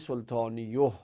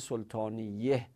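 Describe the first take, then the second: First: The vowel after the y sound is u. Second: The vowel after the y sound is a. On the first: The speaker calls it wrong. "نگفتیم سلطانیوه؟ به خاطر اینکه اونا سنگین بودن" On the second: The speaker calls it right. "یا رو حرکت فتحه که اخف حرکات دادیم"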